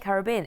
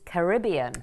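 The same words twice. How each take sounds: First: It is said the way outsiders say it. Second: It is said the way Caribbean locals say it. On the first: "they don't say Caribbean" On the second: "it's Caribbean"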